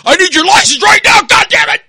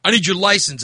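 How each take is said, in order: First: Very loud, high-pitched full-out scream; screaming cop. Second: Said in the usual way. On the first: Retold or imitated. Cop screaming at driver for his license, enraged scream. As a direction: explode into an enraged screamed order. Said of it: "he was screaming at me". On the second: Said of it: "he gets out and says".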